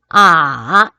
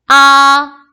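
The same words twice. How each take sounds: First: The pitch dips low and then rises. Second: The pitch stays high and level. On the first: "삼" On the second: "일성일 경우"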